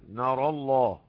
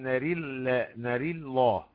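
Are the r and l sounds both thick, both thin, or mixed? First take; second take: both thick; mixed. First: The r and the l are both thick. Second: The r is thin and the l thick. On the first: "وتفخيم الراء واللام" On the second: "وترقيق وتفخيم"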